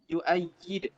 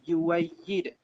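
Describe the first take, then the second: First: A glottal stop follows the first vowel. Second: A w sound follows the first vowel.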